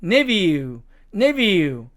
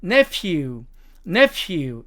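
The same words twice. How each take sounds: First: Nephew said NEV-yoo, with a v; British NEV-yoo, clearly demonstrated; British pronunciation. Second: Nephew said NEF-yoo, with an f; American NEF-yoo, clearly demonstrated; American pronunciation. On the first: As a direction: say nephew with a v sound, British style. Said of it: "F 발음이 V 발음으로". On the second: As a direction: say nephew with an f sound, American style. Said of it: "미국식 발음으로 가면". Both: Shown as a demonstration.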